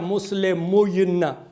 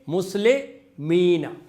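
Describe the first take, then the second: First: A short u vowel comes before the y. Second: A long ee vowel replaces the u and y. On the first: The speaker calls it wrong. "ऐसे होता नहीं है" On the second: The speaker calls it right. "मुस्लिमूना से बन जाएगा मुस्लिमीना"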